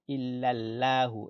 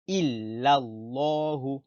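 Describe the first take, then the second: First: The L is light, said with an empty mouth. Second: The L is heavy, said with a full mouth. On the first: The speaker calls it wrong. "On ne dit pas la bouche vide" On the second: The speaker calls it right. "on dit la bouche pleine"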